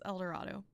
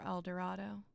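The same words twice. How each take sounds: First: The word has the standard pronunciation. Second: The word has the local pronunciation. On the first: The speaker calls it right. "Say it right" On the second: The speaker calls it wrong. "I'm going to apologize for incorrectly pronouncing that"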